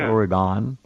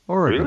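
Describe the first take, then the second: First: The last syllable is fully pronounced, not 'gun'. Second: The last syllable is reduced, like 'gun'. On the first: The speaker calls it wrong. "It's not Oregon or Aragon" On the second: The speaker calls it right. "it's spelled Oregun, and that's how you pronounce it"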